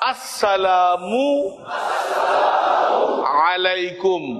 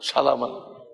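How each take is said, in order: First: It starts with an 'as' sound before 'salamu'. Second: It starts directly with 'salam', no opening vowel. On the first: The speaker calls it right. "শুরুতে কি আছে আ" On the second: The speaker calls it wrong. "অনেকে তো সালা কইতে দে আর সালা বলে"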